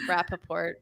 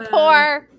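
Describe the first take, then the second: First: The word is said with four syllables. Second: The word is said with two syllables. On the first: The speaker calls it wrong. "I read it Rappaport in my head" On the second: The speaker calls it right. "Build rapport, not Rappaport"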